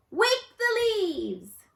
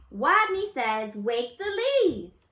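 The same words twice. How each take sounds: First: High, loud and slow command; stronger voice. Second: Loud, slow game command; stronger voice. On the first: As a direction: call it out with new courage. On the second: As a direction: call the game firmly. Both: A narrator's reading. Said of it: "Wadney's voice was stronger".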